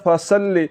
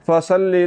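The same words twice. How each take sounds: The two takes are said the same way.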